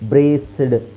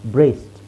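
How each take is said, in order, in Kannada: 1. ಕೊನೆಯ ಭಾಗ ಬೇರೆಯಾಗಿ ಕೇಳಿಸುತ್ತೆ, ಅದು ಘೋಷಿತ d ಸೌಂಡ್. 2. ಕೊನೆಯ ಭಾಗ ಮೃದುವಾದ t ಸೌಂಡ್ ಆಗಿ ಬೆರೆತುಕೊಳ್ಳುತ್ತೆ. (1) "ಅಲ್ಲಿ ನಾನು ಸಿಡ್ ಸಿಡ್ ಅಂತ ಬರ್ತಾ ಇದೆ ಅಲ್ವಾ?" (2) "ಅದಕ್ಕೆ ಅವರು ಡಿನ ಟಿ ಮಾಡ್ತಾರೆ"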